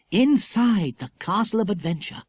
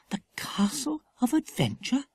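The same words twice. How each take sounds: First: Said in the usual way. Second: Put-on high, wondering question from a young girl; Lucy Ann surprised, echoing the castle name. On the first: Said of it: "echoed Lucy Ann". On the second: A narrator's reading. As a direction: echo it back, amazed. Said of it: "echoed Lucy Ann in surprise".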